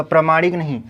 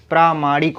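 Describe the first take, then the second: First: प्रामाणिक with short first a, pramanik; wrong form. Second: प्रामाणिक with long aa, praamaanik; correct form. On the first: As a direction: say प्रामाणिक as pra-ma-nik with a short a. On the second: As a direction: stretch the first vowel of प्रामाणिक, praa. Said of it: "प्रामाणिक होता है". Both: Shown as a demonstration.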